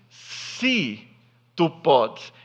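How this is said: It sounds hesitant, with little faith.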